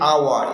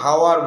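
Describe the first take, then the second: First: The word starts with a vowel, no h. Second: The word starts with an h sound. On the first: The speaker calls it right. "এইচ আছে কিন্তু উচ্চারণ নাই" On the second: The speaker calls it wrong. "এটাকে হাওয়ার বলি না আমরা"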